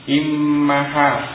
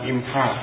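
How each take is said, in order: First: The m is doubled and followed by a vowel. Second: The m is single with no vowel after it. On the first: The speaker calls it right. "Jadi mimnya itu tasdid dan fathah, bukan sukun ya" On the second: The speaker calls it wrong. "bukan imha"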